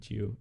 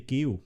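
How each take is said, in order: First: The name is pronounced the English way. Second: The name is pronounced the Danish way. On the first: "I think it has to be Geo" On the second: "in Danish, we say Geo"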